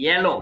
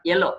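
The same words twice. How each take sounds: First: "yellow" with a firm y onset; careful model yellow, y clearly sounded; correct pronunciation demo. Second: "yellow" with the y dropped, "ello"; mispronounced yellow as "ello"; wrong pronunciation demo. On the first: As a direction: lean on the ya sound that opens yellow. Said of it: "this is". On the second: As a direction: start yellow straight on the e vowel. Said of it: "it's not yellow". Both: Shown as a demonstration.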